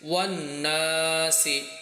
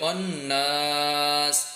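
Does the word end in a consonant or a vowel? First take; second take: vowel; consonant. First: The word ends with a short i vowel. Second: The word ends on a bare s consonant. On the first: The word is joined to what follows. "সিনজের সি" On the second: The reciter stops at the end of the verse. "ওয়াকফের জন্য এটা নাস হয়ে যাবে"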